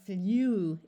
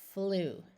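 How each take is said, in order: First: The vowel has a 'y' glide, like 'yoo'. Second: The vowel is a plain 'oo' without glide. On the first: The speaker calls it wrong. "saying U after the letter, letter L is too hard to do, because that would sound like flew" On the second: The speaker calls it right. "So we use the oo sound"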